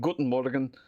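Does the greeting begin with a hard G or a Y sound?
hard G. The greeting begins with a hard G sound. This is the ordinary German way. "instead of saying"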